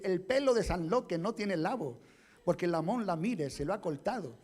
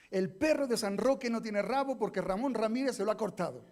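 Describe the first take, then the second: First: It is said with a foreign accent, r as l. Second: It is said with native Spanish r sounds. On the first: The speaker is not really from Murcia. The speaker calls it wrong. "tú no eres de Murcia" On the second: This is the model to be repeated. The speaker calls it right. "repite conmigo"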